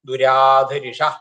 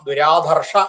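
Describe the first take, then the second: First: A short i vowel is inserted between r and sh. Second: The r and sh form a cluster with no vowel between. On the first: "പൊതുവെ നമ്മൾ ചെല്ലുക ദുരാധരിഷ എന്നാണ്" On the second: "ദുരാധർഷ എന്ന് ചെല്ലിയാൽ അങ്ങനെ ഒരു തെറ്റ് എന്നൊന്നും പറയാനില്ല"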